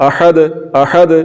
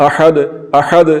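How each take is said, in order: Both takes have the same delivery.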